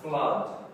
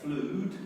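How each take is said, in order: First: The vowel is a short 'uh' sound. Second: The vowel is a long 'oo' sound. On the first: The speaker calls it right. "it's a flood" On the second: The speaker calls it wrong. "it's not an oo sound. We don't say flued"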